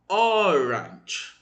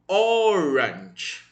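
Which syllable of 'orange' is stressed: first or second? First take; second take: first; first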